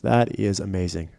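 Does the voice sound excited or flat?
flat. It is said flatly, without enthusiasm.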